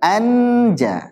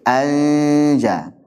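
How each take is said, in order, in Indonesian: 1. Huruf n diucapkan dengan jelas dan penuh. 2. Huruf n tersembunyi sebagai bunyi sengau. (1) "bukan anja" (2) "tapi anja ... Ini ikhfa"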